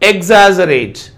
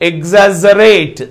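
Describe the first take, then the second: First: The stress is on the first syllable. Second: The stress is on the second syllable. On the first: "first syllable పైన ఇచ్చాడు" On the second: "జ దగ్గర sound ఇచ్చాడు, stress ఇచ్చాడు, but that is not correct"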